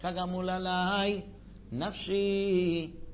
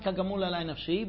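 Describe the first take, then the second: First: There is a pause after alai, before nafshi. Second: The phrase runs on with no pause before nafshi. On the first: The soul itself is like that. The speaker calls it right. "but kagamul alai nafshi" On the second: The soul is part of the comparison phrase. The speaker calls it wrong. "nafshi is not kagamul alai nafshi"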